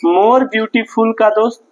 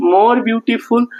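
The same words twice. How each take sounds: First: Said in the usual way. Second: "more beautiful" stretched out very slowly, each word held; slow, drawn-out dictation. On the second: Shown as a demonstration. Teacher dictating to students, very slow and deliberate. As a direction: spell it out slowly so the class can write it down. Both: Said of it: "किसका प्रयोग करते हैं".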